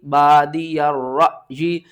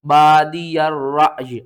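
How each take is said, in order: First: बादिया र जी chanted slowly, ending in a long "ee"; joined reading. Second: बादिया drawn out, रअज jerked and closed on a still y; stopped reading. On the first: Teacher spelling it out, बादिया र जी recited with long ending. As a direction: draw out the final जी after a catch on र. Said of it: "या ज़ेर जी". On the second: Teacher showing the stop, बादिया रअज with a jerk. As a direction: chant it loudly, stopping short on रअज. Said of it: "या को भी last में साकिन करेंगे". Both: Shown as a demonstration.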